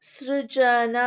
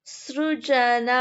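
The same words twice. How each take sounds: Both takes have the same delivery.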